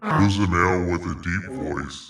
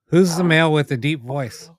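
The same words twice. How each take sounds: First: It is said in a put-on deep voice. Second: It is said in a normal voice.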